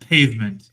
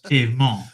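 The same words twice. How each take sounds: First: The word has a plain English pronunciation. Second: The word has a French-style pronunciation.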